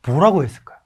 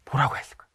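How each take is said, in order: First: Said in the usual way. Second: 뭐라고 했을까요 whispered with no voice, teasing; a secret whispered to the audience. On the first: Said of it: "뭐라고 했을까요? (whispered repeat)". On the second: Shown as a demonstration. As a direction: lean in and whisper the question.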